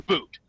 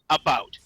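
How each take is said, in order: First: The second vowel sounds like the vowel in boot. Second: The second vowel sounds like the vowel in out. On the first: The speaker calls it wrong. "not a boot" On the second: The speaker calls it right. "we pronounce it about"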